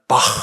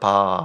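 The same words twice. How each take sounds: First: It ends with a throaty h sound. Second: The throaty h sound at the end is dropped. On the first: The speaker calls it right. "바 해야 되는데" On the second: The speaker calls it wrong. "이 후음이 안 나서 바 이렇게 되는 거죠"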